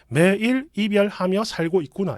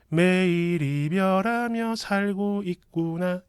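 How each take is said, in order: First: The phrase is read plainly, exactly as written. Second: The phrase is articulated so it sounds more distinct. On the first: "원래대로 읽- 그냥 말 그대로 문자 그대로 읽으면은" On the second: "밑에 게 더 정확하게 들립니다"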